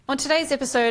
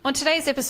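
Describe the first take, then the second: First: The voice has an EQ cut near 2654 hertz. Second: The voice has no EQ cut applied. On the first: "at the two six five four hertz" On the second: "this is without the E Q on"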